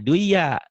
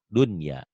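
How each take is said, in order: First: The n sound is dropped and merged. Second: The n sound is clearly pronounced. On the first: The speaker calls it wrong. "jangan dibaca duya" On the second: The speaker calls it right. "harus dibaca idhar"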